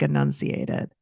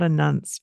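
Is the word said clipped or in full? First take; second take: in full; clipped. First: The word is said with all its syllables. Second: The word is clipped, missing middle syllables. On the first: The speaker calls it right. "it's like enunciated" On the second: The speaker calls it wrong. "It's not enunced"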